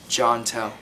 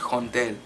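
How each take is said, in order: First: The name is said in an English accent. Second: The name is said in a Spanish accent.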